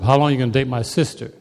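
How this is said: It is said in a deepened, puffed-up voice.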